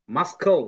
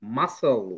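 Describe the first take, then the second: First: মাস্কল with a hard k sound, the c read aloud; deliberately wrong মাস্কল, k clearly pronounced. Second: মাসল with a silent c, no k sound; the right মাসল, the c left silent; correct pronunciation. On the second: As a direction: say মাসল smoothly, s straight into l. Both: Shown as a demonstration. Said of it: "মাস্কল তো পড়ি না আমরা".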